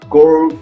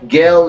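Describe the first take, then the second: First: The word is said in an American accent. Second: The word is said in a London accent. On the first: "pronounced girl in the New American colonies" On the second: "girl in London"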